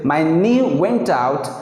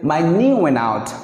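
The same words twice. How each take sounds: First: The t in went is clearly pronounced. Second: The t in went is dropped entirely. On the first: "sometimes we say" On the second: "most common we say ... N and T is cancellation"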